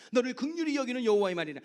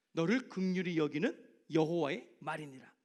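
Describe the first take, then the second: First: '긍휼히'를 크게 힘주어 외치는 암송; 말씀을 힘차게 선포하듯. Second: '너를'부터 낮게 한 마디씩 또박또박 눌러 말하기; 마지막 말씀을 엄숙하게 도장 찍듯; 도장 찍듯 마무리. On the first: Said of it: "줄줄 외워요". ('긍휼히'에 강세를 두고 크게 암송) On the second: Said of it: "도장 찍는 마디". (낮고 엄숙하게 '긍휼히'를 천천히 눌러서) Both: Shown as a demonstration.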